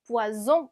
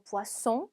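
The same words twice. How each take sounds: First: Poisson mispronounced with a buzzing z, "pwa-zon"; wrong z sound. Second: Poisson with a hissing s, "pwa-son"; sharp s sound. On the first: Teacher shows the mistake to avoid, poisson with a z. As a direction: say poisson with a z in the middle. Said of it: "아니고 poisson". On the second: Teacher corrects to the fish word, poisson with a sharp s. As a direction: say poisson with a clear double-s in the middle. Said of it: "스 발음을 내주셔야 돼요". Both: Shown as a demonstration.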